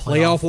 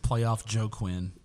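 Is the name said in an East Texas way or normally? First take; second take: normally; East Texas. First: The name is said the usual way. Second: The name is said like Joe Quinn.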